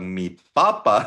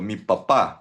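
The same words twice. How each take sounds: First: The stress is on the first syllable of papa. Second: The stress is on the last syllable of papa. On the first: It means potato or the Pope. The speaker calls it wrong. "pag mi papa ang bag- bigkas mo niyan, na, dalawa ibig sabihin nun" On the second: It means my dad. The speaker calls it right. "may asento, no, sa dulo"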